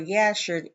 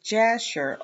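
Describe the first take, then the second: First: The name begins with a Y sound. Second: The name begins with a J sound. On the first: "instead of like a Y" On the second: "with a J sound"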